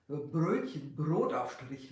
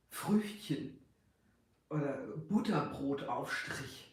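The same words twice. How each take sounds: First: "Brötchen, Brotaufstrich" with a rolled tongue-tip R; rolled Bavarian R. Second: Back-of-throat R in "Früchtchen" and "Butterbrotaufstrich"; modern German R. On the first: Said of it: "like the Bavarian R, this rolled". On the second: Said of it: "Now in German we say R". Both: Shown as a demonstration.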